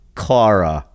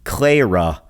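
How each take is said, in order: First: The first syllable does not sound like 'clay'. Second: The first syllable sounds like 'clay'. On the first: The speaker calls it wrong. "not Cla dash Ra" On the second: The speaker calls it right. "her name is pronounced like Clay dash Ra"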